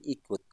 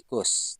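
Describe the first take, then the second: First: The word ends with a t sound. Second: The word ends with an s sound. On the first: The speaker calls it right. "tapi ikut" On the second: The speaker calls it wrong. "bukan ikus"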